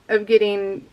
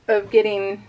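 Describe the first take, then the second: No difference in how they are said.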